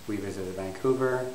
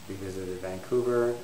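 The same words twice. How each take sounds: The two takes are said the same way.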